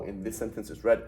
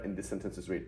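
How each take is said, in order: First: Past-tense READ, short e; READ as red. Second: Present-tense READ, long ee; READ as reed. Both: Shown as a demonstration. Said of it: "Is it read or read?".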